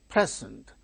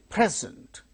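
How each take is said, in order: No difference in how they are said.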